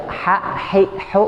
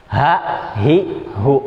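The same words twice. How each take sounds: First: High "ha, hi, hu" with a clean Arabic ḥ from mid-throat; cleaner ha. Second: "Ha, hi, hu" with a plain h from the deepest end of the throat; deep-drawn ha. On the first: Teacher contrasting the two letters, higher and cleaner ha. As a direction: sharpen "ha, hi, hu" into clean, raised mid-throat friction. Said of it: "lebih bersih dia". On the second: Teacher showing learners the deep letter, h drawn from within. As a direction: pull each "Ha, hi, hu" from deep inside. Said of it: "narik ke dalam dari ujung". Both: Shown as a demonstration.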